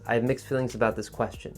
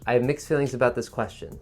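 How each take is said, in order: First: It is said smoothly in one breath. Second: The same.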